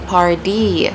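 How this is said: The middle t sounds like a soft d. "we would say party"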